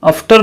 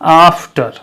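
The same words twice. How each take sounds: First: The first vowel is short. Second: The first vowel is a long 'aa'. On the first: The speaker calls it wrong. "आफ्टर नहीं" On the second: The speaker calls it right. "आ"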